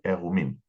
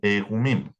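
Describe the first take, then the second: First: No 'y' sound follows the first vowel. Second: A 'y' sound follows the first vowel. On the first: This is the modern Hebrew reading. "En hebreo moderno, esta Yod no se lee" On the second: This is the biblical Hebrew reading. "En hebreo bíblico sí se lee"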